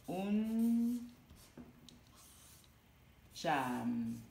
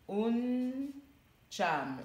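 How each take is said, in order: First: "Un cham" split slowly, "un" said "oun" with a clear "ou", then "tcham"; careful pronunciation. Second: "Un cham" said as "oun" then "tcham", syllable by syllable; careful pronunciation. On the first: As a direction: spell out "Un cham": oun... tcham, with a long pause. ("Un cham" détaché lentement, "un" prononcé « oun », puis « tcham ») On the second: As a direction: model "Un cham" slowly: oun, pause, tcham. (« Un cham » articulé : « oun », pause, « tcham ») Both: Shown as a demonstration. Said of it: "Le U se prononce ou, toujours".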